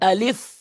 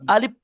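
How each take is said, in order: First: The f sound is made with teeth on lip. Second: The f sound is made with both lips together. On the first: The speaker calls it right. "আলিফ বলতে হবে।" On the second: The speaker calls it wrong. "দুটো ঠোঁট মিলে তো আলিফ হয়ে যাবে। আলিফ অর্থ ভুল হবে।"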